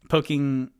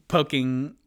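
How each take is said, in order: Both takes have the same delivery.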